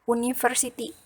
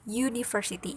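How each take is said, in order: First: The word begins with a vowel sound. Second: The word begins with a y sound. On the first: The speaker calls it wrong. "Ini dibacanya bukan university" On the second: The speaker calls it right. "tapi university. University itu huruf mati. Y"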